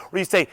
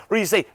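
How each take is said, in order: Both takes have the same delivery.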